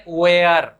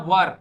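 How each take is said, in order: First: WERE drawn out as वेयर, two syllables; Bhojpuri pronunciation. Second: वर as one short syllable, wur; correct pronunciation. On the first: Retold or imitated. Teacher imitating local speakers, Bhojpuri pronunciation of वेयर. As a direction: say वेयर as way-ar, stretched. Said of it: "और इसको pronounce करते हैं". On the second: Shown as a demonstration. Language teacher correcting learners, correct pronunciation of वर. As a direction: say WERE as a short वर. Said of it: "इसे हमें pronounce करना".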